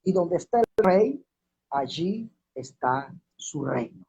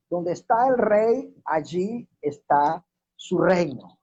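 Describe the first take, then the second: First: Said in the usual way. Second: Drawn out and firm, pausing after "rey" and "está"; emphatic repetition. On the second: Real, not acted. Preacher repeats his key point to the congregation, slow and emphatic on "rey". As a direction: repeat it slowly, leaning hard on "rey" and "reino". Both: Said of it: "Lo voy a repetir".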